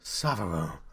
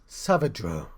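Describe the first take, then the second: First: The name is said without a D sound. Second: The name is said with a D sound. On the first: The speaker calls it wrong. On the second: The speaker calls it right.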